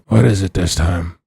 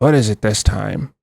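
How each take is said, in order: First: It is said in a rough, growling voice. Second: It is said in a plain, normal voice.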